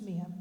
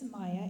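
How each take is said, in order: First: The first vowel sounds like 'ee'. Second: The first vowel sounds like 'eye'. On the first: This is the Spanish pronunciation. "in Spanish it's Mia" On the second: This is the Irish pronunciation. "in the Irish pronunciation is Maya"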